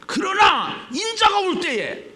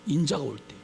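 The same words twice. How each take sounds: First: High, loud, slow proclamation; preacher's proclamation. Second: Said in the usual way. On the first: Real, not acted. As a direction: call the verse out forcefully. Preacher proclaims the verse again.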